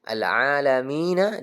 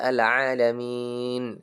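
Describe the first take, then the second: First: The word ends with a final vowel sound. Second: The word ends on a silent consonant. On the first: The reader continues without stopping. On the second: The reader stops at this word.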